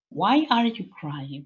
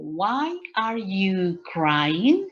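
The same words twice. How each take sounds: First: Said in the usual way. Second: Very slow, careful question; slow model question. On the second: Shown as a demonstration. Teacher modelling a question for students, very slow. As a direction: spell out the question slowly for the class. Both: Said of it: "If I ask you, for example".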